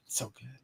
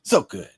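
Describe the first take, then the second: First: So good repeated much softer, almost under the breath; quiet echo. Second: Said in the usual way. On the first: Real, not acted. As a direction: murmur So good as a soft echo.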